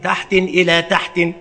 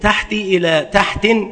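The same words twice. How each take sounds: First: Both words end with tanwin. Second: First word ends in kasra, second has tanwin. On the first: "بتنوينهما" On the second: "بكسر الأول وتنوين الثاني"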